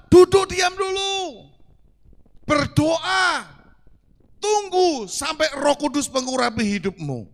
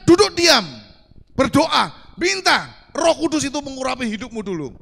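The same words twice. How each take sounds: First: High, loud, slow command; slow the command down and proclaim it; emphatic command. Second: Loud, high proclamation of the verse; proclaimed scripture. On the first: Preacher proclaiming scripture's command to sit still. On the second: Preacher to congregation, proclaiming the command loudly. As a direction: ring it out like a command from the pulpit. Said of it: "Firman Tuhan katakan". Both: Acted.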